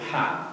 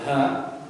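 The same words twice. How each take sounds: First: The h sound is thin, like a breathy gasp. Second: The h sound is thick and heavy. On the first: "ada yang dia ditipiskan seperti orang kepedesan yaitu ha" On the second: "ada yang ya tebal itu ha"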